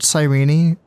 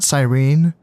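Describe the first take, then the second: First: The final E is sounded as a syllable. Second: The final E is silent. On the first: "I think that the E at the end of it is pronounced. I feel like I've heard it called Cyrene" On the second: "and not Cyrene"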